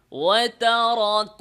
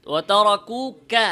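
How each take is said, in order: First: ওয়াতারাকুকা slow, the কাফ made thick like ক; wrong pronunciation. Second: ওয়াতারাকুকা slow and louder, কাফ kept thin; careful slow ওয়াতারাকুকা; correct pronunciation. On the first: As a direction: demonstrate the error ওয়াতারাকুকা, heavy কাফ. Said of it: "ভুল এটা।". (ভুল উচ্চারণ, মোটা কাফ) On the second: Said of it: "পরের ক এর কারণে". (সঠিক পাতলা কাফ) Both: Shown as a demonstration.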